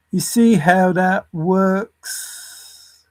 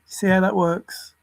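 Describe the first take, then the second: First: Very slow, every word stretched; slow, emphatic question with a long final word; drawn-out repeat. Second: Said in the usual way. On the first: Real, not acted. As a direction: drag it out to make the point.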